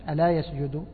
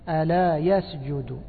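First: The phrase is rushed together without stress. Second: The phrase is given clear stressed emphasis. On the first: It sounds like a present-tense verb. The speaker calls it wrong. "ما يخطفهاش، ما يقولش" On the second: It is a call followed by a command to prostrate. The speaker calls it right. "إنما ألا يسجد، يسجد هكذا يعطيها نبر"

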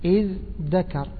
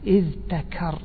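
First: A dh sound is followed by a d sound. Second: A dh sound is followed by a t sound. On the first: The t has been replaced to ease pronunciation. "التاء أبدلت دال" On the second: This is the original, unassimilated form. "يعني هذا أصلها أن تقول إذ ذكر، يعني افتعل من الذكر"

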